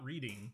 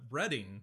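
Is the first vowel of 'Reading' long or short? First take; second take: long; short. First: The first vowel is long, like 'reed'. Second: The first vowel is short, like 'red'. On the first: This names the act of reading. The speaker calls it wrong. "Not Reading" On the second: This names the town. The speaker calls it right. "It is Reading"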